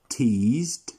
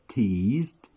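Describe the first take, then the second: No difference in how they are said.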